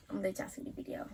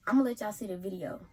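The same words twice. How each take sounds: First: Whispered aside. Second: Said in the usual way. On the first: Real, not acted. Teasing her viewers about the video, whispered. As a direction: drop to a secret whisper. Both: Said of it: "repeats it whispered".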